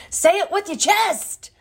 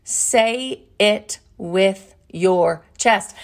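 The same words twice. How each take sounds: First: High, punchy comic yell; Kevin Hart catchphrase. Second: Each word drawn out and weighty; slow, deliberate reading. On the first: Acted. Host borrows a comedian's line, bold comic yell. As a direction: fire it off fast, high and bold. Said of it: "That's, like, a Kevin Hart thing". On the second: Shown as a demonstration. Host reveals her cliff note, slow and deliberate. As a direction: spell it out word by word, very slowly.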